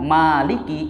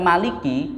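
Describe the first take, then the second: First: The first vowel is said long. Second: The first vowel is said short. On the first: It means the one who owns. "maliki itu yang memiliki" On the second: It means the one who rules. "maliki pendek artinya penguasa"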